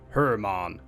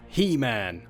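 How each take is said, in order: First: The name is said with a Chinese-style pronunciation. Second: The name is said like the English 'He-Man'. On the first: The speaker calls it right. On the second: The speaker calls it wrong.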